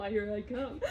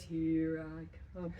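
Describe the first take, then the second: First: Giggling playful threat; laughing. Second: "Here I come" low and slow, teasing; low, slow playful threat; low fun voice. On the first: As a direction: break up laughing while teasing. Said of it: "I know". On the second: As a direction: drop the voice low and stalk the dog playfully. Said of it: "my voice changes, it goes down low. It's kind of a fun voice". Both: Shown as a demonstration.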